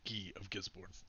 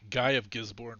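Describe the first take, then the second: First: Guy is said with a French pronunciation. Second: Guy is said with an English pronunciation.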